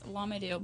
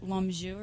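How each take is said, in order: First: The name is said with an English pronunciation. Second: The name is said with a French pronunciation. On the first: "that's not how you say it in French" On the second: "It's supposed to be like Lamjou or something like that"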